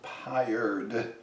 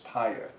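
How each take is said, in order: First: The final D sound is pronounced. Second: The final D sound is silent. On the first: "most Americans might say Paillard and pronounce the D" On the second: "In France, they won't say the D"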